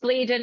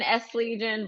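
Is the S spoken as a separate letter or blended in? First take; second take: blended; separate. First: The S is blended into one word. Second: The S is said as a separate letter. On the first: The speaker calls it wrong. "a lot of people pronounce it as Legion" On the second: The speaker calls it right. "it's S Legion"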